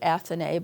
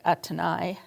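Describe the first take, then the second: First: The name is said with an English-style pronunciation. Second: The name is said with a French pronunciation. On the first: "I pronounce it Athenais" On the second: "in French it would be more like Athénée"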